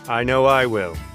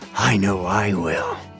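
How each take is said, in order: First: The line is delivered flatly, with little emotion. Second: The line is delivered with strong emotion. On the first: The speaker calls it wrong. "Vice is sounding a little flat now" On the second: The speaker calls it right. "Excellent on the emotion"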